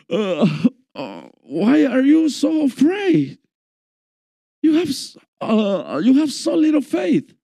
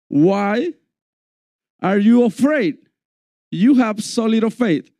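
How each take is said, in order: First: It is said in a groggy, half-awake voice. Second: It is said in a plain, alert voice.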